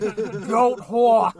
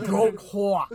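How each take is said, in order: First: Put-on shouted New York accent. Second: Put-on drawn-out New York accent. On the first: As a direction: belt it in thick New York. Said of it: "He's like". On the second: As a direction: savor each word in New York. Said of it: "with my New York accent".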